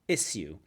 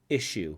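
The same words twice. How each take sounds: First: The middle consonant is an s sound. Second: The middle consonant is an sh sound. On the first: It marks a higher social class. "some of the higher class people say issue" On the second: Most people say it this way. "most people pronounce the word issue"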